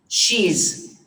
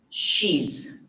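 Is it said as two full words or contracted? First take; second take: contracted; contracted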